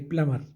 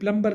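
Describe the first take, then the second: First: The b sound is silent in the middle. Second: The b sound is pronounced in the middle. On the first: The speaker calls it right. "उसको हम प्लमर कहेंगे" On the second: The speaker calls it wrong. "प्लम्बर नहीं"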